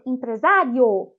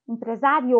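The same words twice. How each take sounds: First: Empresário drawn out slowly, the final O louder than the I; stressed demo word. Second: Said in the usual way. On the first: Shown as a demonstration. Teacher showing students which vowel is stronger, slow and stressed. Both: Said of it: "O O, ele é falado de forma mais forte".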